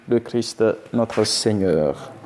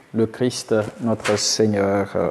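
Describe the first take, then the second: The two takes are said the same way.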